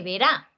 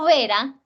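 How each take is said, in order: First: "verá" con fuerza en RÁ; acento en la última. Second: "vera" con fuerza en VE; acento en la penúltima. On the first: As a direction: suelta "ve" y carga la sílaba final de "verá". ("verá" como aguda, ve-RÁ) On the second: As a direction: carga la primera sílaba de "vera" y suelta la final. ("vera" como palabra grave, VE-ra) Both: Shown as a demonstration. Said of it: "no es lo mismo vera que verá".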